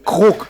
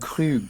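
First: The final g is clearly sounded. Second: The final g is left silent. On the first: The speaker calls it right. "Nee, Krug" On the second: The speaker calls it wrong. "Und die sagen dann, ich hätte gerne einen Cru"

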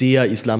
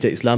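First: It is said with an odd, pointed emphasis. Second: It is said plainly, with ordinary emphasis. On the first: It implies a hostile, prejudiced view. "Man betont es nochmal ganz eigenartig" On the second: It simply names the religion. "Das ist nicht der Islam"

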